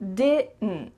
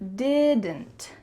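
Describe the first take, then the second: First: The D and T are cut short in the throat. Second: Every sound, including the D and T, is pronounced clearly. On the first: "that final D is cut short, and the final T as well is cut" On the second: "this is the clear pronunciation"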